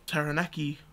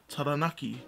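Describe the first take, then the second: First: It is pronounced in an anglicized English way. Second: It is pronounced in the Maori way. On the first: The speaker calls it wrong. "I've grown up saying" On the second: The speaker calls it right. "instead of"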